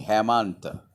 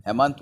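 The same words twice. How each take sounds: First: "Hemant" with a lengthened second syllable; pronunciation demo. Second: Said in the usual way. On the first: Shown as a demonstration. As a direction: say "Hemant" stretched out, ending on a released t. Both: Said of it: "the pronunciation is".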